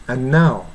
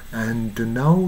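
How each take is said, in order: First: "and now" with the d lost in the n; conversational "and now", no d heard; swallowed d. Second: "and now" slowly, with the d released; careful, sung-style diction on "and now", d before n; clearly sounded d. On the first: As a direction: run "and now" together as an-now. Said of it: "nuのに飲み込まれて". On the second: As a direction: give the d its own beat in "and now". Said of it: "って言った方が". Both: Shown as a demonstration.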